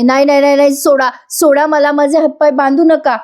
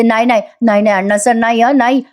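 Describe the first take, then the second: First: Desperate screams. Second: Said in the usual way. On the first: Retold or imitated. Priya screaming as goons tie her hands, panicked. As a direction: cry out for your life against being tied. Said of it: "Priya ओरडत असते जीवाच्या आकांताने". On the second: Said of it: "Priya महिपतला म्हणते".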